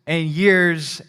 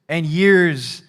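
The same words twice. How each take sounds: The two takes are said the same way.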